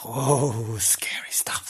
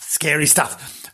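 First: Hushed mock-scary whisper; spooky whisper. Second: Said in the usual way. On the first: Host spooking listeners about screams in an empty house, whispering. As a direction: whisper it like a ghost story.

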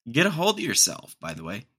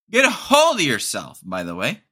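First: Said in the usual way. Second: Louder repeat. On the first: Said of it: "repeats phrase". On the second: Shown as a demonstration. Scolding the gym guy, louder the second time. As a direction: really push the Get a hold. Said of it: "louder repeat".

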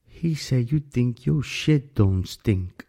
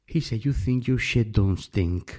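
First: Put-on slow, drawn-out Alabama accent; a hint of Alabama accent, mocking quote. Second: Put-on Alabama accent. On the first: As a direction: lightly imitate an Alabama drawl, very slow. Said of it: "con este acento así un poco de Alabama". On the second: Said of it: "Tienen un acento así un poco".

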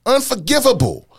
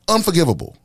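First: Unforgivable said much higher and louder; escalated Unforgivable; louder higher take. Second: Said in the usual way. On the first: Shown as a demonstration. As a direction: push the word Unforgivable up with outrage.

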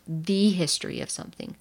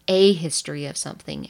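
First: "the" set apart as the contrasting word; stress on THE. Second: "a" set apart and punched before the noun; stress on A. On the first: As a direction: lean on "the", said as a full "thee". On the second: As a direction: lean on "a", said as a full "ay". Contrasts "a" with "the. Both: Shown as a demonstration.

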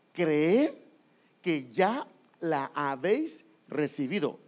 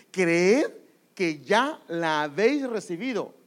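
First: Said in the usual way. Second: "Creed" called out much louder, the rest slow; stress on Creed. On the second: Shown as a demonstration. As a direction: hammer "Creed" loud, then draw out "que ya la habéis recibido". ("Creed" gritado con fuerza y el resto lento) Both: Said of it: "¿Está leyendo conmigo?".

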